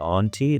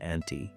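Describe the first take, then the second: First: The first vowel is an O sound. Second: The first vowel is an A sound. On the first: The speaker did not grow up here. The speaker calls it wrong. "if you say it with the O sound" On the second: The speaker grew up here. The speaker calls it right. "the people who grew up here say auntie"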